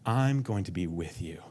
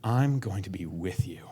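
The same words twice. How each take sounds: First: Gentle promise. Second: Breathy whisper, barely there; whispered promise. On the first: God reassuring the overwhelmed believer, soft and tender. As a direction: lay it down tenderly. God's promise, repeated, fading. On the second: God promising presence, whispered close and intimate. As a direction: let it fall to a whisper. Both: Acted.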